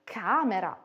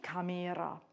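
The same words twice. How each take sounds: First: "camera" stressed as CAmera; first-syllable stress. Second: "camera" mis-stressed as caMEra; wrong middle stress. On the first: Teacher showing where stress falls, CA stressed in "camera". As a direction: hit the CA of "camera". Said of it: "wo die Betonung eines Wortes ist". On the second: Teacher showing what not to say, ME stressed in "camera". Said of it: "und nicht camera". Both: Shown as a demonstration.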